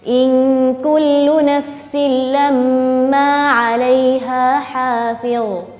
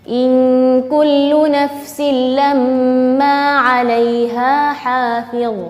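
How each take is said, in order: Both takes have the same delivery.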